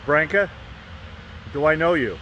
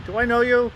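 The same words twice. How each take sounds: First: Lightly voiced Michael, a touch brighter; casual mild Michael imitation; [name] voice. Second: Much higher, breathy-free Michael echo; high Michael line repeated to Branca; [name] voice. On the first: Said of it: "he says". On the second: Acted. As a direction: pitch it up high like Michael teasing. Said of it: "I said".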